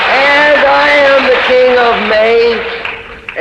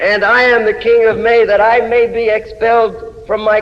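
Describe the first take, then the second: First: High, slow, drawn-out declaration; lifted, slowed chant of the title line; slow proclaiming refrain. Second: Said in the usual way. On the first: Acted. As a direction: stretch the refrain out like a royal proclamation.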